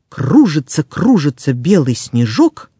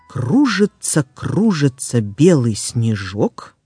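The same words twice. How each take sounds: First: The phrase is spoken fast. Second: The phrase is spoken slowly. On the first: "А теперь быстро" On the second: "Сначала я прочитаю скороговорку медленно"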